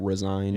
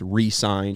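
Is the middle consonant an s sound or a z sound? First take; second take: z sound; s sound. First: It starts 'ri' with a z sound. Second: It starts 'ree' with a clear s sound. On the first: The person quit the job. The speaker calls it wrong. "not resigned" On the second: The player signed a new contract. The speaker calls it right. "It's it's re-signed"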